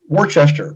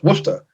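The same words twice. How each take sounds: First: It is said with three full syllables. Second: It is said with two short syllables. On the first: This is how it looks on the sign. The speaker calls it wrong. "it looks like it says Worcester" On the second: This is the actual local pronunciation. The speaker calls it right. "it's actually pronounced Worcester"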